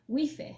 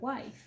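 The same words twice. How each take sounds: First: It is read out sound by sound, Spanish-style. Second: It is said with the usual English pronunciation. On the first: "you read the word based on the syllables. So you want to do the same thing in English" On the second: "instead of"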